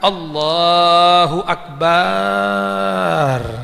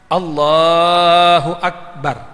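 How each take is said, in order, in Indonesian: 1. Vokal setelah 'b' dalam Akbar panjang. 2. Vokal setelah 'b' dalam Akbar pendek. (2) "Ba-nya nggak boleh panjang"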